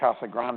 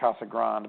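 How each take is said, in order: First: Grande is said the Spanish way, two syllables. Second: Grande is said the English way, like grand. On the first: This is how the speaker personally says it. "I pronounce it" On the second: This is how the local people say it. "Everyone else there calls it"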